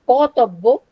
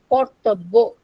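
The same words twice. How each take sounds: First: "katabbo" with the r dropped and the accent moved to the last syllable, bo; stress shifted to final syllable. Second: "kartabbo" with the main accent on the middle syllable, tab; stress on second syllable. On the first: Lecturer showing the shifted accent, "katabbo" stressed on its final syllable. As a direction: move the weight onto the end of "katabbo". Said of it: "main accent is shifted from second syllable". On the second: Lecturer showing accent before the shift, "kartabbo" stressed on its second syllable. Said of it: "our main accent is shifted on second syllable".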